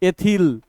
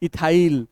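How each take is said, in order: First: The last syllable sounds like 'ill'. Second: The last syllable sounds like 'isle'. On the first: This is the actual pronunciation. The speaker calls it right. "जबकि है" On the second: This is the common local way of saying it. The speaker calls it wrong. "हम लोग कैसे बोलते हैं"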